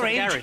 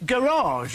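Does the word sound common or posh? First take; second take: common; posh. First: The word is said in a plain, everyday way. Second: The word is said in a refined, upper-class way. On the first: The speaker is one of the ordinary people. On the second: The speaker is not one of the ordinary people. "rather than"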